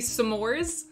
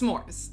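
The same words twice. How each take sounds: First: A small break follows the first s sound. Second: The word is said smoothly as one unit. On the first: The speaker calls it wrong. "kind of like pronounces the apostrophe" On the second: The speaker calls it right. "It's one word"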